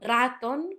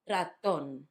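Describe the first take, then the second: First: The stress is on the first syllable. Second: The stress is on the last syllable. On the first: The speaker calls it wrong. "not raton" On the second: The speaker calls it right. "it's on the last syllable"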